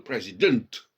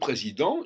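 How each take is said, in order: First: The final T sound is clearly pronounced. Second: The final T sound is silent. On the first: "il fait sortir le T" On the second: "en français, le T disparaît en suffixe"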